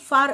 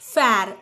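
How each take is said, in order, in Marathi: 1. स्वर दीर्घ आणि मोकळा आहे, 'father' सारखा. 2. स्वर छोटा आणि पुढचा आहे, 'cat' सारखा. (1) "फार असा उच्चार होतो" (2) "इथे फॅर असा उच्चार होत नाही"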